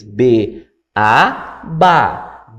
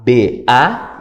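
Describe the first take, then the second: First: B, A, then a resolving ba; teacher's full pattern closing on ba; first-stage drill. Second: B then A, left open; unfinished spelling prompt on A; cue to complete. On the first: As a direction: spell B, A and complete with ba. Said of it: "na primeira etapa". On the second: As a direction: leave A hanging for the pupil. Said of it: "e o aluno completava". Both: Shown as a demonstration.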